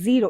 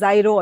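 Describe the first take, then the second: First: The first vowel sounds like 'ee'. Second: The first vowel sounds like 'eye'. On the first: "called అస్ జీరో" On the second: "sometimes pronounced as జైరో"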